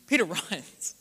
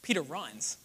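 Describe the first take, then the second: First: Peter, then a laugh breaks in before runs. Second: Said in the usual way. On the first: Real, not acted. Repeated punchline, second with laugh.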